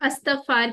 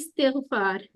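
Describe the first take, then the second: First: The word begins with an 'a' vowel. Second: The word begins with an 'i' vowel. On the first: This is the everyday Urdu form. The speaker calls it wrong. "थोड़ा सा हम उर्दू में गलत बोलते हैं। अस्तगफार कहते हैं ना हम लोग" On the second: This is the original form of the word. The speaker calls it right. "लेकिन असल में क्या होता है"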